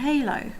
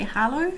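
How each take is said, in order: First: The name is said without a French sound. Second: The name is said with a French sound.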